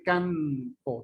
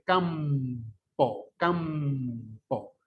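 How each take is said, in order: First: CAMPO said as "canpo", slow; tongue tip up for an n in "campo"; con n alveolar. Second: CAMPO with a long humming m; con m bilabial. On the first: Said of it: "Usted no dice campo". ("campo" pronunciado "canpo") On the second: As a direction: close the lips and stretch the m in "campo". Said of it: "dice campo". ("campo" con m muy alargada) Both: Shown as a demonstration.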